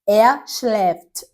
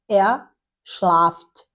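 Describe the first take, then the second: First: The verb's vowel sounds close to 'e'. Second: The verb's vowel sounds like a plain 'a'. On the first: The speaker calls it right. "vai ter o som mais próximo de E" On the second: The speaker calls it wrong. "e não er schlaft"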